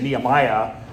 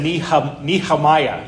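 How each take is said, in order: First: No h sound is heard in the middle. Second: An h sound is heard in the middle. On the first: "I don't put the H in" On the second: "You put an H in it"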